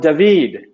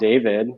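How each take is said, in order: First: The name is said the Hebrew way. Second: The name is said the English way. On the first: The speaker calls it right. "David is the Hebrew version" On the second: The speaker calls it wrong. "like the anglicized version"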